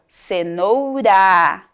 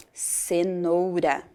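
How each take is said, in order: First: CENOURA slow, with a long, strong final RA; stress on final syllable. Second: Said in the usual way. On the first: Shown as a demonstration. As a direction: draw out the RA ending of cenoura. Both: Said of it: "a sílaba final".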